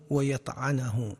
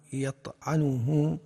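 First: ويطعنه slowly as wa-yat'anuhu, a after the ayn; fatha on ayn. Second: يطعنه slowly as yat'unuhu, u after the ayn; damma on ayn. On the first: Lecturer reading a dictionary's verb forms, slow fatha on ويطعنه. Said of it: "وبفتحها". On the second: Lecturer reading a dictionary's verb forms, slow damma on يطعنه. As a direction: sound a clear u on the ayn of يطعنه. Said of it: "أي بضم العين". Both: Shown as a demonstration.

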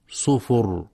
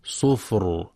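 First: "صفر" with a vowel on the ف, as sufur; wrong reading. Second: "صفر" with a silent ف and a heavy ر; correct reading. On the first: Teacher demonstrates the mistaken reading of "صفر" with a vowel on the ف. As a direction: read "صفر" wrongly, with a u after the ف. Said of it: "فيقرأ خطأ". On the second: Teacher gives the correct "صفر" with a silent ف. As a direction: say "صفر" as sifr, with no vowel on the ف and a heavy ر. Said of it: "والصواب سكونها". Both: Shown as a demonstration.

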